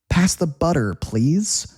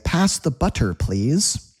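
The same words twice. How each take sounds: First: The middle of butter has a soft D sound. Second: The middle of butter has a crisp T sound. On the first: The speaker calls it right. "That T turns into a D" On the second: The speaker calls it wrong. "We don't say... Nobody talks like that"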